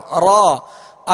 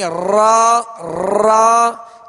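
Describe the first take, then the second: First: The r has only a slight vibration. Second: The r is trilled fully with many taps. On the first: The speaker calls it right. "बस हल्की सी कप कपाहट हो" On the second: The speaker calls it wrong. "ये कई रा बन रही हैं, क्योंकि इसमें मुकम्मल तकरार अदा हो रही है"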